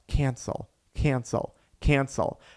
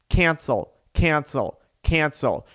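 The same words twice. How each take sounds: First: It is mumbled quietly under the breath. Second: It is said at a plain, moderate volume.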